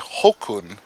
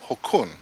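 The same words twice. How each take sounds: First: The stress is on the first syllable. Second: The stress is on the second syllable. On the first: The speaker calls it wrong. "you don't say Hokun" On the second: The speaker calls it right. "the accent's over the U, so you don't say Hokun, you say Hokun"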